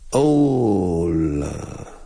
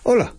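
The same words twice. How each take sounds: First: The vowels are drawn out slowly. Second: It is said short and abrupt.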